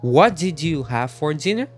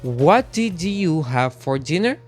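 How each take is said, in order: First: Each word is said separately and fully. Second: Each word is said separately and fully.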